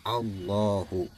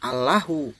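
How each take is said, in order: First: The L in Allah sounds full and heavy. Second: The L in Allah sounds thin and light. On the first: The speaker calls it right. "tafhim itu dibaca tebal" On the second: The speaker calls it wrong. "jangan dibaca Allahu"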